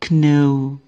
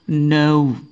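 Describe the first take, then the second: First: A K sound is pronounced at the start. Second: No K sound is pronounced at the start. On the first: The speaker calls it wrong. "ada k-nya" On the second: The speaker calls it right. "K di sini tidak dibaca"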